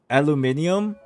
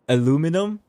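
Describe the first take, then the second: First: It is said with the extra i, ending '-nium'. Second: It is said without the extra i, ending '-num'. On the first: This is the original way of saying it. The speaker calls it right. "it's actually pronounced aluminium" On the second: This is the American way of saying it. The speaker calls it wrong. "let's get rid of the I, and let's say it like in a weird way"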